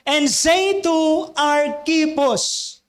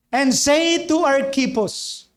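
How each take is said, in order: First: And say to Archippus drawn out, say leaned on; slow emphatic reading. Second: Slow scripture reading. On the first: Pastor repeating the verse to the congregation, slow and weighty. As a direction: read the verse slowly, stressing say. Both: Shown as a demonstration.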